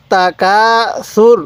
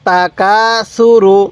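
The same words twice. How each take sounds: First: সুর closed on the r, vowel dropped; pausal stop. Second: সু রু with the final u sounded; full syllables. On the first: Teacher shows the stop at the word end, clipped. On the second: Teacher reads it without stopping, final vowel kept. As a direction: read সু রু as two full syllables. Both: Shown as a demonstration. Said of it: "এখন যদি আমরা এখানে ওয়াকফ করি".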